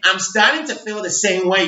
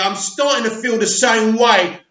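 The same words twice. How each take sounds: First: It is read in an American accent. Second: It is read in a non-American accent.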